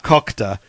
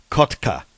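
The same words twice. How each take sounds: First: Kokta with k before the t; wrong pronunciation. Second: Kotka with t before the k; correct pronunciation. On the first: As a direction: say Kokta, swapping the middle consonants. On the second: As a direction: say Kotka clearly, t closing the first syllable. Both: Shown as a demonstration. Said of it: "Not Kokta".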